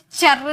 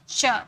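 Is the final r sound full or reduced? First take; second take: full; reduced. First: The final r is fully pronounced. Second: The final r is only half pronounced. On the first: The speaker calls it wrong. "इसे चर नहीं बोलेंगे" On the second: The speaker calls it right. "आधा र"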